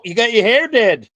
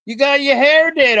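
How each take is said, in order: First: Put-on Southern accent, raised pitch, teasing; playful Southern twang. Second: Exaggerated Southern gushing; higher Southern accent. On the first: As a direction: tease her hair in a mock Southern accent. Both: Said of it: "enough Southern accents here".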